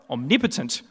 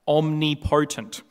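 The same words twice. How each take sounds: First: The stress falls on the second syllable, 'nip'. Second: The stress falls on the 'po' of 'potent'. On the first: The speaker calls it right. "No, omnipotent" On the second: The speaker calls it wrong. "not omnipotent"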